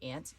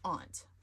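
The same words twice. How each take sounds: First: It is said with a Southern 'ant' vowel. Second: It is said with a broad 'ah' vowel.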